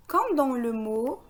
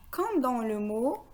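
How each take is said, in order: Both takes have the same delivery.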